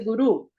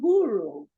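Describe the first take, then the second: First: It is said with a Portuguese pronunciation. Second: It is said with an American English pronunciation. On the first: "Guru em português é guru" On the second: "mas os americanos falam guru"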